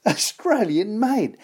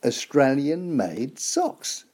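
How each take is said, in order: First: Slow, higher, delighted through a laugh; laughing emphasis. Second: Said in the usual way. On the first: Real, not acted. Presenter proudly repeating the sock's origin with a laugh. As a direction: savour it with a chuckle.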